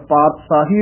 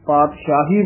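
First: ਪਾਤਸ਼ਾਹੀ with s, "paat-saahi"; no sh in ਪਾਤਸ਼ਾਹੀ, plain s; correct plain s. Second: ਪਾਤਸ਼ਾਹੀ with sh, "paat-shaahi"; wrong dotted s. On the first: Shown as a demonstration. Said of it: "ਉਚਾਰਨ ਕਰਨਾ ਹੈ". (ਪਾਤਸ਼ਾਹੀ ਨੂੰ 'ਪਾਤਸਾਹੀ' ਬੋਲੋ) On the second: Retold or imitated. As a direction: say sh in the middle of ਪਾਤਸ਼ਾਹੀ. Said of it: "ਬਿੰਦੀ ਲਾ ਦਿੰਦੇ ਨੇ". (ਪਾਤਸ਼ਾਹੀ ਬਿੰਦੀ ਵਾਲੇ 'ਸ਼' ਨਾਲ)

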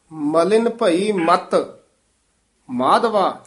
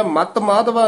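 First: ਮਲਿਨ ਭਈ ਮਤ, then a short pause before Madhava; pause after ਮਤ. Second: ਮਤ Madhava said fast with no break between them; run together, wrong. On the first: Teacher showing the student where to pause, with a pause after ਮਤ. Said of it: "ਇਹ ਬਹੁਤ ਧਿਆਨ ਵਾਲੀ ਠਮਕ ਹੈ". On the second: Teacher showing the wrong reading with no pause after ਮਤ. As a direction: rush ਮਤ straight into Madhava. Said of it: "ਮਤ ਮਾਧਵਾ ਨਹੀਂ ਕਹਿ ਦੇਣਾ". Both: Shown as a demonstration.

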